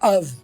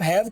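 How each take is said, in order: First: The word is reduced to a short uv. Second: The word is said in full with h.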